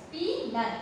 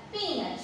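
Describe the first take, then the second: First: "Peanut" divided after "Pea"; split into syllables. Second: Said in the usual way. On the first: Shown as a demonstration. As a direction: say "Peanut" as two separate syllables. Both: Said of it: "So, split after this".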